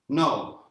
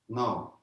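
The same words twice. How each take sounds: First: It is said loudly, with a projected voice. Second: It is said at normal loudness.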